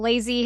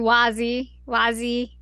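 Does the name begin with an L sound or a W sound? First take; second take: L sound; W sound. First: The name begins with an L sound. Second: The name begins with a W sound. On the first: The speaker calls it wrong. "it's like an L" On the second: The speaker calls it right. "it's pronounced as a W"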